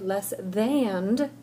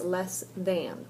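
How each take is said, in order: First: It ends with a stressed added d sound. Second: It ends plainly with an n sound.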